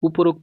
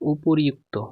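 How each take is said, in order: First: The two parts merge into an 'o' sound. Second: The two parts keep an 'i' before 'ukto'. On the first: The speaker calls it wrong. "উপরোক্ত শব্দ নেই" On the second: The speaker calls it right. "এই উচ্চারণ এই শব্দটা হবে উপরি, উপরিউক্ত"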